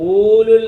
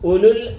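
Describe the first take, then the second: First: The first vowel is drawn out long. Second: The first vowel is kept short. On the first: The speaker calls it wrong. "എഴുതിയേക്കുന്നത് ഊലുൽ എന്നാണ്" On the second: The speaker calls it right. "പറയേണ്ടത് ഉലുൽ"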